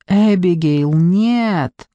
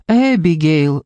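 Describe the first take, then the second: First: Drawn-out, imploring appeal; anxious plea; pleading. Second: Name said on a mild sigh; understated weary reproach. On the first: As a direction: beg her not to do it, stretching the words. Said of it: "умоляла Дженни". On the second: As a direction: sigh the name, letting it sink. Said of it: "вздохнула Дженни". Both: A narrator's reading.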